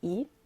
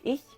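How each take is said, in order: First: The final ch sound is dropped. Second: The final ch sound is pronounced. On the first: This is the Swabian dialect form. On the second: This is the standard German form.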